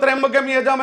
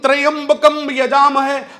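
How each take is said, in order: First: The mantra is said flat, without stress. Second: The mantra is said with clear stress. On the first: The speaker calls it wrong. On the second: The speaker calls it right.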